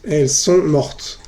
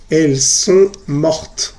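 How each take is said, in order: First: Elles sont mortes again slowly, final es silent; repeated model pronunciation. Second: Elles sont mortes said slowly with a silent final es, as mot; slow model pronunciation. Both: Shown as a demonstration. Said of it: "Se dice mort".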